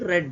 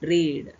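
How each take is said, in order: First: The vowel is a short 'eh' sound. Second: The vowel is a long 'ee' sound. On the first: It is the past tense. "ರೀಡಿನ past tense" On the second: It is the present tense. "ಈ ಈ ಉಚ್ಚಾರಣ ಬರುತ್ತದೆ"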